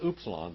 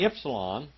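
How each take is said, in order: First: It begins with a 'u' vowel sound. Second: It begins with a 'y'-like vowel sound. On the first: This is the German-derived pronunciation. The speaker calls it wrong. "they say it's upsilon" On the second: This is the original Greek pronunciation. The speaker calls it right. "which is a Y sound, actually"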